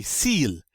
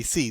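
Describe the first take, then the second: First: S'IL said like "seal"; sounded L. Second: SI said like "see"; silent L. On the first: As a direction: let the L ring in "s'il". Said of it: "you would think you'd say". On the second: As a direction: stop "si" on the vowel, no L. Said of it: "the L gets to be silent". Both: Shown as a demonstration.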